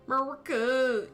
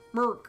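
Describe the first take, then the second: First: The name is said slowly with both syllables. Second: The name is said fast and clipped short.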